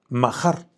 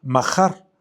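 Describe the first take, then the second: First: Mahar with a throaty j sound as in jalapeño; Hebrew pronunciation. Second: Mahar with a guttural h like the j of jalapeño; Hebrew pronunciation. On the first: Preacher repeats the Hebrew word Mahar for the congregation, throaty h. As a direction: repeat Mahar alone, guttural h, stress on the a. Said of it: "como si dijeras ja- jalapeño". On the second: Teacher shows the congregation how to say mahar, slow and throaty. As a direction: say mahar slowly, throaty h, accent on the a. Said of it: "se pronuncia mahar". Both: Shown as a demonstration.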